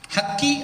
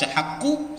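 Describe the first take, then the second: First: The word ends in an i vowel. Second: The word ends in a u vowel. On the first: "Haqqi apalagi lebih salah lagi" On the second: "Kalau dibaca haqqu salah"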